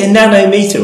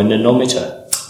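First: "nanometer" as NAN-oh-MEE-ter; "nanometer" as nano plus meter; two-word pronunciation. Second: "nanometer" as nuh-NOM-iter; "nanometer" rhyming with thermometer; run-together pronunciation. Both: Shown as a demonstration. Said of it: "Is it a nanometer or a nanometer".

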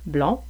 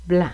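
First: "blond" with rounded nasal "on"; "blond" kept distinct from "blanc"; closed on. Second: "blanc" with open nasal "an"; "blanc" kept distinct from "blond". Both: Shown as a demonstration. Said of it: "une plus grande différence de prononciation".

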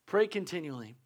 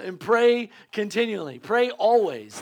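First: Said in the usual way. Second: Louder, slow, stressing pray; emphatic preaching. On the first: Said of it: "the scripture would say". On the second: Acted. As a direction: hammer each word of the verse. Preacher drives the verse home.

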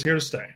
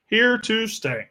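First: Said in the usual way. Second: HERE TO STAY drawn out slowly, pitched higher; emphatic repeat. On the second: Real, not acted. Host reassures viewers the show is here to stay, slow and emphatic. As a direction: stretch each word of "Here to stay", starting high.

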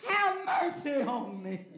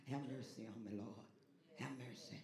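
First: Loud, slow, raised plea; Bartimaeus crying out. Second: Low, soft murmured plea; old folk's everyday prayer. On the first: Acted. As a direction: cry out slowly, begging for mercy. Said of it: "Bartimaeus cried out". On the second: Retold or imitated. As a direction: say it quietly to yourself around the house. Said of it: "Old folk used to just say it around the house".

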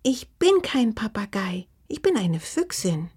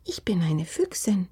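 First: Indignant little fox, starting high; piqued creature voice; offended. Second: Small, gently proud creature voice; mildly proud. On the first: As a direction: correct them in a huffy small voice. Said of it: "berichtigte Oma mal beleidigt". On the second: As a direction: declare it with a touch of pride. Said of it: "sagte die kleine blaue Füchsin nun stolz". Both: A narrator's reading.

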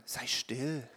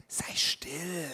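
First: Soft, low mock shush; a hint of a crowd telling him to hush. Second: Whispered shushing, barely voiced; hushing whisper. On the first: Everybody telling the blind man, softly, to be quiet. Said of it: "Und alle anderen sagten". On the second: Crowd whispering at the blind man to hush. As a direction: hiss it like a crowd silencing someone. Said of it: "Und die Leute um ihn herum sagten".

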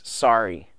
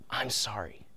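First: Said in the usual way. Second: Hushed, sincere apology, almost whispered; soft, breath-light and truly sorry; heartfelt apology. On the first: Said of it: "when he just says". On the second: Retold or imitated. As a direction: imitate a child's heartfelt apology, very softly. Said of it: "said a heartfelt".

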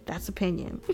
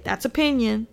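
First: Much softer, under-the-breath repeat of "That's opinion"; quiet aside. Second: Said in the usual way. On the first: Shown as a demonstration. To viewers after the rant, softer joking aside. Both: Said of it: "But hey".

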